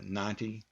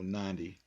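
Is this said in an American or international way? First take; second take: international; American. First: It is said in the common international way. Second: It is said in a typically American way. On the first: "which is the common pronunciation around the world" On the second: "Then us Americans come in and we go ninety"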